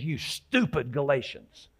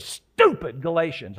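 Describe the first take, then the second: First: Said in the usual way. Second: "Stupid Galatians" louder and slower, leaning hard on "Stupid"; pressing "Stupid" for blunt emphasis; emphatic tone. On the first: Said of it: "you notice I said". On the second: Shown as a demonstration. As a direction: lean on "Stupid" and let "Galatians" fall. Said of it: "I really added the emphasis of the tone".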